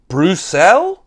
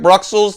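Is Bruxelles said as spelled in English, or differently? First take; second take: differently; as spelled. First: It is not said the way it looks. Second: It is said just the way it looks. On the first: The speaker calls it right. "the proper pronunciation of this, I think, is Bruxelles?" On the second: The speaker calls it wrong. "it looks like Bruxelles to me, and that's what I say in my head"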